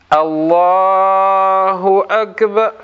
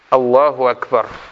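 First: The phrase is drawn out with a lengthened vowel. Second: The phrase is said quickly without lengthening. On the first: The speaker calls it wrong. "начинают затягивать. Затягивать как?" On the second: The speaker calls it right. "говорит такбиру аль-ихрам быстро"

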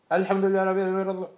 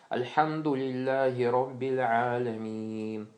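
First: It is recited quickly and hurriedly. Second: It is recited slowly and calmly. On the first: The speaker calls it wrong. "А не так" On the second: The speaker calls it right. "Спокойствие. Спокойно"

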